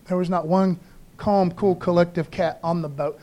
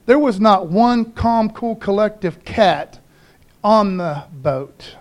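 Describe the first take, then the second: First: Said in the usual way. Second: "not one calm, cool, collective cat" spaced out slowly; slow emphatic delivery. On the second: Shown as a demonstration. Preacher stressing nobody on the boat was calm, slow and emphatic. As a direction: drag out each word of "on the boat" for weight. Emphatic line, then repeated plainly.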